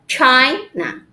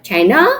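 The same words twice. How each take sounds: First: The stress is on the first syllable. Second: The stress is on the second syllable. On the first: The speaker calls it right. "but China" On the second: The speaker calls it wrong. "not China"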